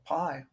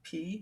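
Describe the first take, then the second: First: The vowel sounds like the word 'pie'. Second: The vowel sounds like the word 'pee'. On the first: The speaker calls it wrong. "I said pi like everybody else does" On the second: The speaker calls it right. "this really should be P"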